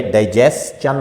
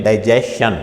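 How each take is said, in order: First: डाइजेस्चन with an s and then a ch sound; correct pronunciation. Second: डाइजेशन said with sh, no ch sound; wrong pronunciation. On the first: Shown as a demonstration. Teacher giving the right डाइजेस्चन with s then ch. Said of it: "If S exist before T I O N". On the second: Retold or imitated. Teacher echoing doctors' wrong डाइजेशन with sh. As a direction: model the mistake, डाइजेशन with sh. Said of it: "डाइजेशन pronunciation नहीं है".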